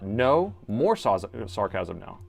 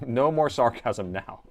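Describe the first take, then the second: First: There is a clear pause after "No". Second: It runs on without a pause after "No".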